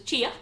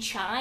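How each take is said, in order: First: It is said as two syllables, chee-ah. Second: It is said as one syllable, like chai. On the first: The speaker calls it right. "I got told it was chia" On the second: The speaker calls it wrong. "I was saying chai"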